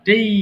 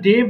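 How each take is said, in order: First: The vowel glides from 'e' to 'ee'. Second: The vowel is a plain short 'e'. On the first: The speaker calls it right. "এটাকে ডেই বলবা" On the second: The speaker calls it wrong. "আমরা ডে বলতাম"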